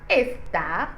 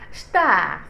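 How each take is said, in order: First: The word begins with an audible e vowel. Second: The word begins directly with the s sound. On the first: The speaker calls it wrong. "on ne dit pas estar" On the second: The speaker calls it right. "on dit star"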